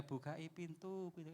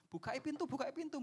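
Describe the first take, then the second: First: Soft, slow, half-hearted asking; the wrong way, too meek; slow, softer "Bukai pintu" with no urgency; limp mumble. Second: High, raised call at a locked door; urgent higher shout through the door; yelling to open up. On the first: Shown as a demonstration. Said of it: "nggak gitu". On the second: Retold or imitated. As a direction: bang on the door and yell. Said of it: "atau bengok-bengok".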